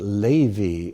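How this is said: The name has a Hebrew pronunciation. This is the original form of the name. "it's actually Levi in Hebrew"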